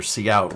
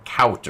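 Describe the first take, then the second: First: Cout said "see-out"; cout as two words. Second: Cout said as one word, like "kowt"; cout as one syllable. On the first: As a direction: say the letter C, then out, for cout. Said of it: "it's pronounced cout". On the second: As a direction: run cout together into a single syllable, rhyming with out. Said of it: "Why is it cout or cout?". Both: Shown as a demonstration.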